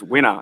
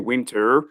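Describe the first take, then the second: First: The final R is dropped. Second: The final R is sounded. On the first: The speaker calls it right. "It's winter. It's it's W I N T A" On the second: The speaker calls it wrong. "we don't say winter"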